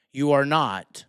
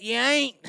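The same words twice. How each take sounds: First: Said in the usual way. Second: Lightly mock the Southern twang on ain't; playful Southern country voice. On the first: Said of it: "Sorry, that was Southern". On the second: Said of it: "he said it like some Southern redneck".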